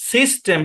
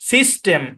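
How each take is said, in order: No difference in how they are said.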